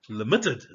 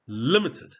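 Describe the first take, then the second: First: LIMITED misstressed as li-MIT-ted; wrong doubled-T stress. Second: LIMITED slowly as LIM-it-ed; first-syllable stress. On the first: Teacher jokes about a nonexistent word, LIMITED as li-MIT-ted. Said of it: "If you did double the T". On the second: Teacher models the real word, LIMITED stressed on LIM. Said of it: "you don't double the T". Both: Shown as a demonstration.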